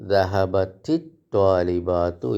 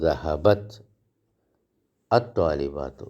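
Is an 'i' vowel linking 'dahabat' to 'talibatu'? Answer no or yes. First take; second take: yes; no. First: An i vowel links the t into the next word. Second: The t ends the first word with no linking vowel.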